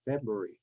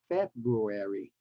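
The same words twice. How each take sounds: First: The word is squeezed into fewer syllables. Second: All four syllables are carefully pronounced. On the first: This is the everyday relaxed form. "in casual speech, we just say" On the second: This is the careful, formal form. "Same with February"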